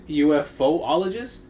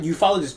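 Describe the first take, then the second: First: An extra 'oh' syllable comes before '-ologist'. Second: No extra 'oh' syllable comes before '-ologist'. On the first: The speaker calls it right. "it is UFOologist" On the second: The speaker calls it wrong. "is not ufologist"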